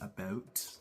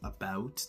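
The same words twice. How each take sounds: First: It is said with a Canadian accent. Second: It is said without a Canadian accent. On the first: "they'd say about" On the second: "Instead of saying about"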